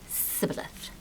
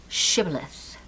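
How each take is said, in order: First: The word begins with an 's' sound. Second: The word begins with an 'sh' sound. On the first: This is how the other group said it. The speaker calls it wrong. "the Edomites pronounce it sibboleth" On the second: This is how one group said it. The speaker calls it right. "The Israelites have the word shibboleth"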